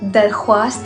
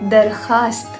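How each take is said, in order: First: A 'w' sound follows the 'kh'. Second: No 'w' sound follows the 'kh'. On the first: The speaker calls it wrong. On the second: The speaker calls it right.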